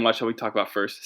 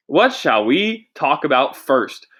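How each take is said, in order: First: Said in the usual way. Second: Stalling host line. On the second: Shown as a demonstration. Host demoing how to fill time, drawn-out and slow. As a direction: stretch it out like a host killing time. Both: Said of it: "See that? That's how you fill time".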